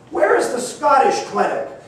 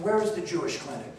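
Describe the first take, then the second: First: It is asked at a louder volume. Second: It is asked at the softest volume.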